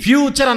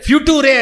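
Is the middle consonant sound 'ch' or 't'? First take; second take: ch; t. First: The middle sound is 'ch', ending in 'cher'. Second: The middle sound is 't', ending in 'toore'. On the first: The speaker calls it right. "ఫ్యూచర్ అనకుండా" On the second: The speaker calls it wrong. "ఫ్యూటూరే అనింది"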